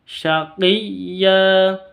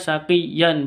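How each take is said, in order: First: The word ends with a long vowel, no n. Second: The word ends with a short vowel plus n. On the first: The reader stops on the word. "ya-nya panjang dua haro harokat" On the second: The word is read without stopping on it. "itu awalnya kan bacanya syaqiyan"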